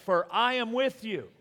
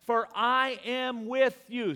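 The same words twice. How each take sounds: First: Said in the usual way. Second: Slow, higher, louder proclamation; slow ringing divine declaration; voice of God. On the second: Shown as a demonstration. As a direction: declare it as God's promise. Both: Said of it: "Say that".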